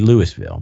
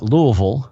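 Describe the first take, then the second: First: It is said as spelled, sounding out every letter. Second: It is said the way Kentucky locals say it. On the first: "but not Louisville ... it would never be Louisville" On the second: "If I'm talking to a bunch of Kentuckians, I call it Louisville"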